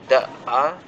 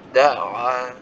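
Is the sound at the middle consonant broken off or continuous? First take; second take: broken; continuous. First: The sound is cut off at the middle consonant. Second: The sound continues smoothly through the middle consonant. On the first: The speaker calls it wrong. "tidak terpotong, bukan fa'a atau da'a" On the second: The speaker calls it right. "tapi diusahakan bersambung suaranya"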